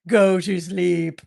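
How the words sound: It is said in a threatening, sinister way.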